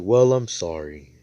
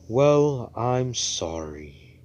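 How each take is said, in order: First: Loud, evenly pitched apology; acted apology. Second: High loud "Well", then drawn-out "sorry"; exaggerated apology. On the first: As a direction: keep it firm and only a little drawn out. Same apology said again, more evenly. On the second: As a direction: stretch a hammed-up grudging apology. Grudging apology, first exaggerated take.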